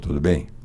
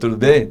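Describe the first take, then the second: First: It is said in a deliberately changed timbre. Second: It is said in the everyday speaking voice. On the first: "Nesse timbre eu não tranco nem uma vez" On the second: "Esse é o meu normal"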